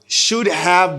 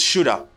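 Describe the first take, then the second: First: Both words are said fully and separately. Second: The words blend into one reduced form.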